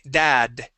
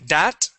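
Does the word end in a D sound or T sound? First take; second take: D sound; T sound. First: The word ends with a D sound. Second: The word ends with a T sound. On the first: The speaker calls it right. "we want to say dad with a D" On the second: The speaker calls it wrong. "instead of saying dat with a T sound"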